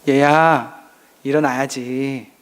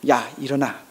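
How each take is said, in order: First: It is said in a soft, gentle voice. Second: It is said roughly and harshly.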